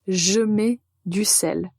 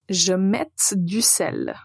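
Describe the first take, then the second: First: The verb ends without any T sound. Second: The verb ends with an audible T sound. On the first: The speaker calls it right. "on n'entend pas la lettre T" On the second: The speaker calls it wrong. "C'est une faute, on peut dire, grammaticale, mais aussi euh, phonétique"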